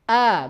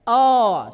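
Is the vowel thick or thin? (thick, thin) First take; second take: thin; thick. First: The vowel sounds light and thin. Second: The vowel sounds heavy and thick. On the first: The speaker calls it right. "keluar dengan tipis" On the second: The speaker calls it wrong.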